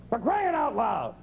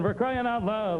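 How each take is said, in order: First: It is exclaimed in an upset, exasperated tone. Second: It is said calmly, like announcing a prize. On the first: The speaker is fed up with something. "When people are upset, they would go" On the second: A child is being given an award for crying. "it's like an award you give to a kid"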